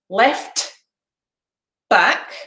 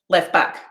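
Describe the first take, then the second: First: Said slowly with the t in left pronounced. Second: Said quickly with the t in left dropped. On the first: "if I say it slowly" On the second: "if you say it quickly ... I'll take away the t"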